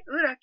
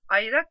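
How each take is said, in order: First: It is said with a plain Turkish pronunciation. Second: It is said with an American accent, like 'ayrak'.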